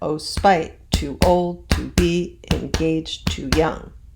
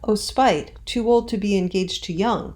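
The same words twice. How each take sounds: First: It follows a regular alternating beat of stresses. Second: It follows the loose stresses of everyday speech. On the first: The line fits the verse meter. "That scans" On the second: This is how people would ordinarily say it. "we wouldn't say that. We'd be like"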